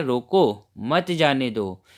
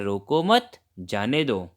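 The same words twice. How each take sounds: First: रोको on its own, a break, then मत जाने दो together; रोको set apart as a command, मत drawn out with what follows; pause after रोको. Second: रोको मत run together and rising, then जाने दो falling lower; रोको मत as one phrase, a pause, जाने दो lower; pause after मत. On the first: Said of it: "उदाहरण के लिए इन दोनों वाक्यों को पढ़िए". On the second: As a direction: join मत to रोको, break, then drop on जाने दो. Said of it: "और दूसरा वाक्य है". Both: Shown as a demonstration.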